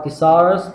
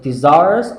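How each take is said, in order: First: The middle consonant sounds like an S. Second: The middle consonant sounds like a Z. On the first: "pronounce it like a kind of S sound" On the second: "pronounce this S like a kind of Z sound"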